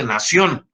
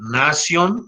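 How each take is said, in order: First: Nación stressed on the last syllable, na-SIÓN; nación as the everyday Spanish word, na-SIÓN; wrong final stress. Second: Nación said as NA-sion, drawn out; nación slowly, with the accent on NA; correct Latin stress. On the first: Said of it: "porque no tiene acento en la O". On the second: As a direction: stress the first syllable of nación, not the final o. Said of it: "no se dice nación". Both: Shown as a demonstration.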